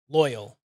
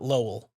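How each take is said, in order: First: The first vowel sounds like the one in boy. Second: The first vowel sounds like the one in low. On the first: The speaker calls it right. "it's Loyal" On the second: The speaker calls it wrong. "not Lowell"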